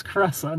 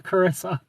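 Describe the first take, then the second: First: Caressa said "kuh-RESS-uh"; name correction. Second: Carissa said "kuh-RISS-uh"; rejected pronunciation. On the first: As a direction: say Caressa with an E as in "dress". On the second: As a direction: say Carissa with an I as in "kiss". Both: Shown as a demonstration. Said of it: "not Carissa".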